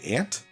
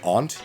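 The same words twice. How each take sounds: First: It is said the American way. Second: It is said the Canadian way. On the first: "in America you guys say aunt" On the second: "We say aunt here"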